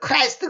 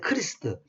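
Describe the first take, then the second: First: The word has an 'eye' vowel: Kraist. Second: The word has an 'ee' vowel: Krist. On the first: This is the English-style form. The speaker calls it wrong. "영어에서 크라이스트 ... 영어식으로 그 저 뭐라 왜곡된 발음이고" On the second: This is the form closer to the original. The speaker calls it right. "크리스트, 크리스트"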